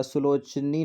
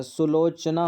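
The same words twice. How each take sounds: First: सुलोचनी ending in 'nee' instead of 'naa'; incorrect form. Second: सुलोचना ending in a long 'naa'; correct form. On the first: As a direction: say सुलोचनी slowly as su-loch-nee. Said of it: "नहीं होता है". (सुलोचनी के अंत में 'नी' बोलें) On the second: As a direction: say सुलोचना slowly as su-loch-naa. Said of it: "होता है". (सुलोचना के अंत में 'ना' बोलें) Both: Shown as a demonstration.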